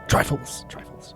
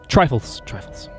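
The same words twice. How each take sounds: First: It is said as a raspy Jack Sparrow impression. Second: It is said in his normal voice.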